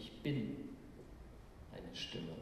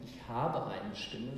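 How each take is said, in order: First: Bin weighted, eine Stimme dropping low and soft; stress on bin. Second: Slow, weight on habe; wrong version. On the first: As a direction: lean on bin, let eine Stimme sink. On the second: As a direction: lean on habe as the wrong reading. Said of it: "Er sagt nicht". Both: Shown as a demonstration.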